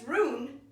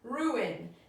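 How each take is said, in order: First: The vowels blend into one syllable. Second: The vowels are split into two syllables. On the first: The speaker calls it wrong. "rune isn't a word" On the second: The speaker calls it right. "we have to separate them"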